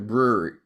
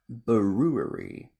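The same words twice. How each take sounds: First: The word is said quickly and casually. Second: The word is said slowly and carefully. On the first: The speaker calls it wrong. "if I just go brewery" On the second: The speaker calls it right. "I fully have to be like"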